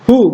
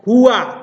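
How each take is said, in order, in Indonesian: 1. Kata itu diakhiri dengan vokal u biasa. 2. Kata itu diakhiri dengan bunyi a tambahan. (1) "tapi hu saja" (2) "bukan hua"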